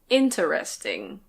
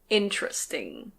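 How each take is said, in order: First: The middle vowel is fully pronounced. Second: The middle vowel is dropped. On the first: "This word can be pronounced" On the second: "But usually we say"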